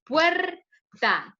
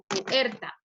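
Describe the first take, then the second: First: "puerta" slowly as puer-ta; correct syllable split. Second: "puerta" broken as pu-erta; wrong syllable split. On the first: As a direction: stretch "puerta" into two beats, puer then ta. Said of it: "¿Cómo la pronunciamos?". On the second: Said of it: "se divide como puerta". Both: Shown as a demonstration.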